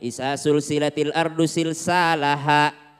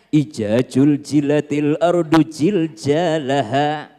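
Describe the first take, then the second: First: The z sounds are all said as s. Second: The z sounds are all said as j. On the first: "Orang Makassar jadi S semua" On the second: "Jadi J semua sih mas"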